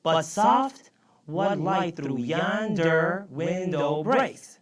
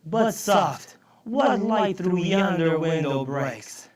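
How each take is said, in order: First: Very slow, measured verse, syllable by syllable; slow demonstration of the line's rhythm; counting out syllables. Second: Loud, drawn-out verse reading; reciting Shakespeare. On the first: Shown as a demonstration. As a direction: space out each syllable so it can be counted. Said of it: "go back to our example and see if this is right". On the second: Acted. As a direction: declaim the line of verse slowly. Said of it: "Here's a line from Romeo and Juliet".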